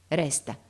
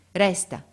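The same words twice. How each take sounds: First: Said in the usual way. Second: Resta said louder and firmer, falling; firmer repeat. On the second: A narrator's reading. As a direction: insist on Resta the second time. (Resta ripetuto più forte e deciso) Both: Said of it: "ripeté il padre".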